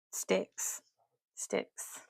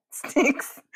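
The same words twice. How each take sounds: First: Breathy voiceless sticks; whispered. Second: Sticks said higher and aloud; voiced higher. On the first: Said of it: "repeats word, whispered". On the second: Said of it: "repeats word, voiced higher". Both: Shown as a demonstration.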